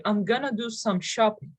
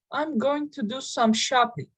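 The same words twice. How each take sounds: First: "going to" merged into "gonna"; reduced "gonna". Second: Said in the usual way. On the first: Shown as a demonstration. Teacher showing learners natural speech, reduced "gonna". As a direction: say "gonna" as one casual word, GUN-uh. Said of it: "you can say". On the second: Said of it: "Instead of this".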